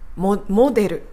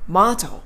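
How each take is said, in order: First: It is said as Japanese 'moderu' with an o vowel. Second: It is said like 'maado' with an open ah vowel. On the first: The speaker calls it wrong. "モデルじゃなくて" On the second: The speaker calls it right. "カタカナにするならマードみたいなのが近い"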